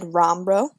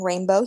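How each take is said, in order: First: The first vowel is an 'o' sound. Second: The first vowel is the usual 'ay' sound. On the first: The speaker calls it wrong. "he said rombro, changing the vowel" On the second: The speaker calls it right. "Instead of saying rainbow"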